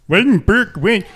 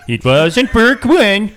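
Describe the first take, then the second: First: "Wasn't Burke when" with "when" squeezed to "win"; high mocking take of "Burke when"; mock accent. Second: "It wasn't Burke when" drawn out, "when" said as "win"; slow, high, mocking "Burke when"; slow mock accent. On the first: Mocking a mispronunciation. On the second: Repeats with slower mocking.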